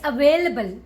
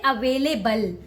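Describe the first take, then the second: First: The stress is on the 'vail' syllable. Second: The stress is not on the 'vail' syllable. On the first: The speaker calls it right. "you need to stress on way" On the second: The speaker calls it wrong. "Don't say available"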